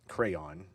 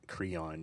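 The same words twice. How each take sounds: First: The name sounds like the word crayon. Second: The name does not sound like crayon.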